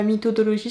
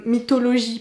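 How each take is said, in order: First: Mythodologie with an extra "do" syllable, mi-to-do-lo-zhi; wrong mythodologie. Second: Mythologie said cleanly as mi-to-lo-zhi; correct mythologie. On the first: Vlogger quoting her own slip, mock wrong pronunciation. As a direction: say mythodologie as the mistaken form. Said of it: "ça n'existe pas". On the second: Vlogger correcting her own slip to viewers, careful right pronunciation. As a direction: say mythologie the right way, four syllables. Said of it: "pas mythodologie, ça n'existe pas". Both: Shown as a demonstration.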